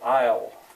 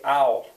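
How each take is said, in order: First: The word is pronounced carefully and in full. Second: The word is reduced to a relaxed dialect sound. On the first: "if I'm being careful, I'll say I'll" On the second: "in dialect, this would be ow"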